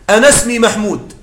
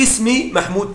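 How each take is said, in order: First: "أنا اسمي" run together as "anasmi", no glottal stop; hamza dropped in connection. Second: "اسمي" begun with a glottal stop and i, "ismi"; hamza sounded initially. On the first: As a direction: join "أنا" straight onto the s of "اسمي". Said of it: "في الوسط تسقط". (وصل "أنا اسمي" بإسقاط همزة "اسمي") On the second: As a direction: start "اسمي" afresh on a clear hamza. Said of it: "لكن أقول في الابتداء". (نطق "اسمي" بهمزة مكسورة ظاهرة في الابتداء) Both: Shown as a demonstration.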